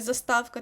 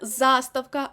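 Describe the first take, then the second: First: The stress falls on a later syllable. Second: The stress falls on the first syllable. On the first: The speaker calls it wrong. "а не заставка" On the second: The speaker calls it right. "наголос буде на першому складі"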